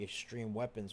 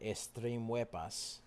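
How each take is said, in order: First: The last word is said in a plain accent. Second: The last word is said in a foreign accent. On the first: "instead of saying extreme weapons" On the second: "the guy spoke with a bit of an accent"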